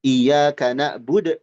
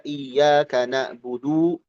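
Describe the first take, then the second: First: Na'bud with the final u cut off; wrong sukun. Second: Na'budu with the final u drawn out, rising; wrong long vowel. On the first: Teacher shows the clipped na'bud mistake. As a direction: chop the end of na'bud. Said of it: "jadi sukun". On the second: Teacher shows the overlong na'budu mistake. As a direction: draw out the u of na'budu. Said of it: "jangan jadi mad". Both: Shown as a demonstration.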